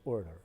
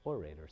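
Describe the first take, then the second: First: "Orator" as OR-duh, accent up front; first-syllable stress. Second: "Orator" as or-AY-ter; second-syllable stress. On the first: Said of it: "I'll say the first". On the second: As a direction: lean on the middle syllable of "Orator". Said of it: "on the second syllable". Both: Shown as a demonstration.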